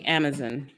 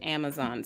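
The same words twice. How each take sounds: First: The word has a British pronunciation. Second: The word has an American pronunciation.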